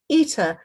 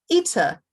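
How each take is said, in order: No difference in how they are said.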